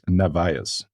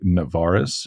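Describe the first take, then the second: First: The name has no r sound at the end. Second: The name has an r sound near the end. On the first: This is how the name is written. The speaker calls it right. "There's no R at the end" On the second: This is how Americans say the name. The speaker calls it wrong. "Americans say Navarez"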